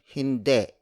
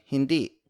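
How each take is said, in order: First: "hindi" ending in an E sound, like hinde. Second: "hindi" with a relaxed, loose final vowel. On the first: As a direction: end "hindi" on an E. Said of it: "with an E sound". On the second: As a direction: let the last vowel of "hindi" go slack. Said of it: "relax their I's". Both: Shown as a demonstration.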